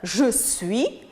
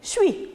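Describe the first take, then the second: First: Both words are said fully as two syllables. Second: The words are merged into one short syllable. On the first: "au lieu de prononcer le sujet et le verbe" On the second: "il les rassemble dans un seul mot"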